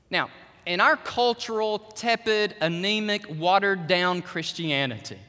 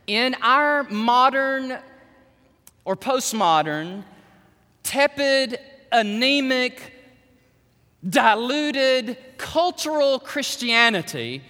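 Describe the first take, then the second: First: Said in the usual way. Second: Each word "tepid," "anemic," set apart slowly; slow emphatic restatement. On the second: Shown as a demonstration. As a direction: lean hard on "our modern" and "tepid", "anemic", slowly. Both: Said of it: "let me say that again".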